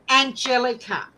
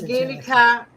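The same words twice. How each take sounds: First: The name is pronounced the English way. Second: The name is pronounced the German way. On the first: "the English way of pronouncing it" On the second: "the German way of pronouncing it"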